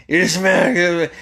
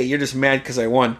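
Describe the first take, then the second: First: "You're just mad" slurred and mushy, high and slow; "You're just mad" drawn out into a barely intelligible mumble; garbled speech. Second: Said in the usual way. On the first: Retold or imitated. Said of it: "it sounded like he wanted to say". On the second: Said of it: "he wanted to say".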